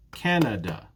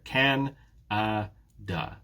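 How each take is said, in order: First: Said in the usual way. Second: "Can-a-da" very slowly, a gap between each beat; syllable by syllable. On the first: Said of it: "How many beats in the word Canada?". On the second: Shown as a demonstration. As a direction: split "Can-a-da" into three separate beats. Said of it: "you can see the breakdown here".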